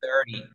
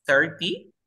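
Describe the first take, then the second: First: THIRTY with no T, like "thiri"; T muda. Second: THIRTY with a clearly articulated T; T pronunciada. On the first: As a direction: drop the T after the R in THIRTY. (THIRTY sin pronunciar la T) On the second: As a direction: sound out the T in THIRTY. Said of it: "¿Cómo se pronunciaría?". (THIRTY con la T bien marcada) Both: Shown as a demonstration.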